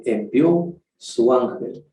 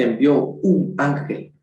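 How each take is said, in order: First: Envió su ángel slow, leaning on su; preacher correcting the verse, stressing su. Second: Said in the usual way. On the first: Shown as a demonstration. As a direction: hit the word su slowly. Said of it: "No dice envió un ángel". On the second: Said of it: "ve, envió su ángel".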